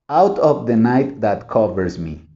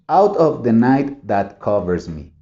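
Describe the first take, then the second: No difference in how they are said.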